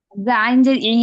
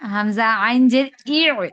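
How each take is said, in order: First: The last syllable ends in a plain vowel. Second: The last syllable ends with a throat catch. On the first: The speaker calls it wrong. "হামজা আইন জের ই না" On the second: The speaker calls it right. "ই বলে আইনকে ধরবো"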